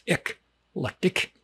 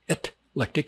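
First: The word begins with an 'ek' sound. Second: The word begins with an 'et' sound. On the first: The speaker calls it right. "It's eclectic" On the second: The speaker calls it wrong. "This is not etlectic"

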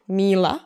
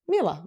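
First: The vowel in the name is drawn out long. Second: The vowel in the name is kept short. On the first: This is the old village way of saying the name. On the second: This is the city way of saying the name.

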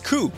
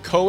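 First: The vowel rhymes with shoe. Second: The vowel does not rhyme with shoe. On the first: The speaker calls it right. "like shoe with a K" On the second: The speaker calls it wrong. "neither of them are correct"

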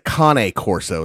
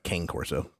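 First: The first word is said the Italian way. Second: The first word is said like English 'cane'. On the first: This is the original pronunciation. "is how they actually pronounce it" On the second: This is the common spelling-based pronunciation. "it looks like cane corso, which is what a lot of people call it"

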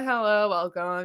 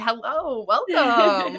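First: The greeting sounds flat and unenthusiastic. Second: The greeting sounds bright and cheerful. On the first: The host does not sound welcoming. The speaker calls it wrong. "I don't want it to sound like that" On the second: The host sounds nice and welcoming. The speaker calls it right. "I want it to be like up and like happy"

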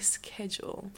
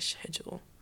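First: It is said the American way. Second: It is said the British way. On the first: "Do you say schedule?" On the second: "I think the British say schedule"

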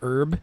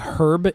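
First: The word begins with a silent h. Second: The word begins with an audible h sound. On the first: This is how it is said at home. "instead of herb" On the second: This is how it is said in England. "This is another British one. They say herb"

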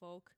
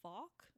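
First: The vowel sounds like the one in 'folk'. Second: The vowel sounds like the one in 'talk'. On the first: "apparently it is supposed to be folk" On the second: "Some people pronounce it Falk"

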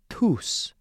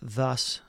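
First: The word begins with a soft, breathy t. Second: The word begins with a th sound. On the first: The speaker calls it right. "It's really a softer T with an H kind of aspirated" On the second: The speaker calls it wrong. "So it's not thus"

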